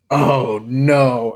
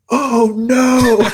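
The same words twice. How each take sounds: First: Said in the usual way. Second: High startled shriek, louder. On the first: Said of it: "And I'm like". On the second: Retold or imitated. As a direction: yelp it out in shock. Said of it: "and I, like, shrieked".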